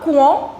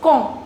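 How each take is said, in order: First: The word begins with a 'kw' sound. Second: The word begins with a plain 'k' sound. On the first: The speaker calls it wrong. "So it's not quand" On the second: The speaker calls it right. "replace it with a K. ... it's quand"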